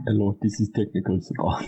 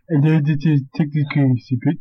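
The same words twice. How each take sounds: First: Put-on Indian accent. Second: Copying a put-on Indian accent; mimicked Indian accent. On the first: Shown as a demonstration. Friend showing host the accent, put-on Indian accent. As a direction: model an Indian accent for a call-centre greeting. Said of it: "Do an Indian accent, and I'll mimic it". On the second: Host mimicking friend's demo, imitated Indian accent. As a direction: parrot the greeting in a rough Indian accent. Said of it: "and I'll mimic it".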